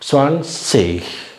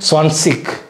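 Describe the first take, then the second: First: The word ends in a soft breathy ch sound. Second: The word ends in a hard k sound. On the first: "இஷ் இஷ் அப்படிங்கிற மாதிரி உச்சரிக்கிறாங்க" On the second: "இக்கு ஸ்வான் சிக் அப்படி சொன்னால் தப்பு கிடையாது"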